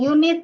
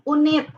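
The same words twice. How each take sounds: First: It is said with an English-style pronunciation. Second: It is said with an Indonesian-style pronunciation. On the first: The speaker calls it wrong. "jangan unit ya" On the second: The speaker calls it right. "Jadi bacanya jadi unit"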